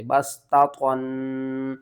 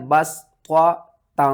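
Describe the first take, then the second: First: बस ता त्वन with light t first and heavy held ending; wrong letter swap. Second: बस त्वा ता with heavy त्वा and light, held nasal ता; deliberate, separated बस त्वा ता; correct reading. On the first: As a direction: muddle it as बस ता त्वन, thickening the last syllable. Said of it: "लोग ता और त्वा में फ़र्क नहीं करते". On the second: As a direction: punch बस त्वा, pause, then stretch a thin ता. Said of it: "किस तरह पढ़ना है". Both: Shown as a demonstration.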